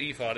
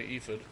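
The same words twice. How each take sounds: First: "ephod" with long ee and a clear fod. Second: "ephod" with long ee and a reduced fid. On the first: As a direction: say "ephod" as EE-fod, full second vowel. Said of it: "I usually try to say it ephod". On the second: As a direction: say "ephod" as EE-fid, weak second vowel. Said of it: "I might say ephod". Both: Shown as a demonstration.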